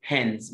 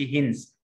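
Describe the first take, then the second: First: "Hens" with a short open e; the right "Hens"; correct hens. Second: "hens" said as hins with a closed i; the wrong "hens" to avoid. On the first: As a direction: open your mouth on "Hens". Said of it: "الإي بتقوله بقك مفتوح". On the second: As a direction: show the mistaken "hens". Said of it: "ما أقولش". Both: Shown as a demonstration.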